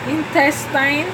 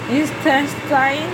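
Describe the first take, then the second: No difference in how they are said.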